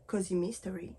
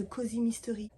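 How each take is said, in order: First: "Cozy Mystery" in a light English accent; a mock English accent on "Cozy Mystery". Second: Said in the usual way. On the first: Shown as a demonstration. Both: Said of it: "Je fais l'accent anglais".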